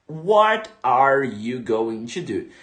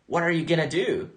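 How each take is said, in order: First: Going to is said fully, word by word. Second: Going to is reduced to gonna. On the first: This is the textbook form. "o inglês dos livros" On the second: This is how natives say it in real life. "Como que a, a pessoa vai pronunciar o nativo?"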